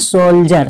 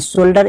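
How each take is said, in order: First: The middle consonant is a 'j' sound. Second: The middle consonant is a plain 'd' sound. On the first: The speaker calls it right. "इसको क्या बोलना है सोल्जर" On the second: The speaker calls it wrong. "ऐसा नहीं बोलना है सोल्डर"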